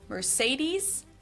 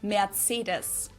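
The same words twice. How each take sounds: First: It is said the American way. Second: It is said the German way.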